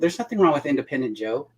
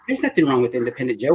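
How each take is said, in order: First: It is said in the speaker's ordinary accent. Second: It is said in an imitated English accent.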